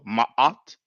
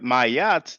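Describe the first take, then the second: First: A glottal catch splits the two vowels. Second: A y sound joins the two vowels. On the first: The speaker calls it right. "the ayin is a glottal, has like kind of a glottal stop" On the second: The speaker calls it wrong. "there's no y, it doesn't sound good"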